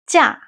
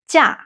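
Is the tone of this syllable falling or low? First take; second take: falling; falling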